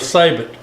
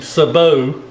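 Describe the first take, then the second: First: The word has an English-style pronunciation. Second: The word has a French-style pronunciation. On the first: This is how most people the speaker knows say it. "I call it a sabot, like most people that I know call them" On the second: This is how a French speaker would say it. "since I'm not French, I'm not going to be saying sabot"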